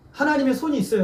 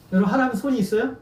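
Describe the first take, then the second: First: '하나님의 손이 있어요' said as a statement with a falling end; '하나님의 손이 있어요' with firm stress on '하나님의' and a fall; '하나님의 손이 있어요' declared, the tune dropping at the end; stated as fact. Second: '하나님 손이 있어요?' with a rising questioning end; '하나님 손이 있어요?' put to the congregation with a rising tune; asked as a question. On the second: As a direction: stress on '하나님', then '있어요?' lifts up. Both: Shown as a demonstration.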